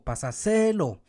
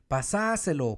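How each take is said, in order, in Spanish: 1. El acento está en la tercera sílaba. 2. El acento está en la segunda sílaba.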